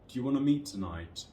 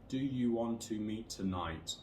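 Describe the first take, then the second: First: The small words are said in weak forms. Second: The small words are said in full forms. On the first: "with these weak forms" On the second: "with no intonation and no stress"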